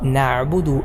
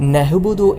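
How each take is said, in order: First: The middle consonant is a tight throat ayn sound. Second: The middle consonant is a breathy h sound. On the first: The speaker calls it right. "നഅ്ബുദു എന്ന് തന്നെ മൊഴിയണം" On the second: The speaker calls it wrong. "ഹ ആയിട്ടൊക്കെ"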